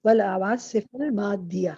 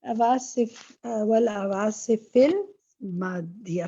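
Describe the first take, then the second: First: Slow model reading. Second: والعواصف المادية stretched out very slowly, every sound separate; very slow model reading. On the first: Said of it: "teacher models the correct reading". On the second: Teacher drills والعواصف المادية very slowly for the student. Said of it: "فی آ رہا ہے نا پیچھے". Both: Shown as a demonstration.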